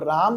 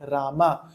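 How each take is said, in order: First: The word ends on a bare consonant. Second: The word ends on a full final vowel. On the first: This is how it is said in Hindi. "म को आधा कर दे रहे हैं" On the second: This is how it is said in Sanskrit. "Sanskrit में जब आप बोलते हैं राम तो उसको आप बोलते हैं रामा"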